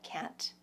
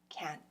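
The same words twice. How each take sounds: First: The final T is clearly released. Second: The final T is not clearly released. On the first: The speaker calls it wrong. "just pop that T" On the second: The speaker calls it right. "in a more natural way"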